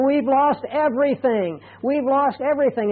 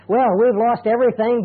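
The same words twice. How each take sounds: First: Higher, anguished cry of loss; despairing quote. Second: Steady and accepting, not despairing; accepting, calm quote. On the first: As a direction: voice a family that lost it all. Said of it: "they're crying, and they're saying". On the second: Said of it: "Two completely different attitudes". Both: Retold or imitated.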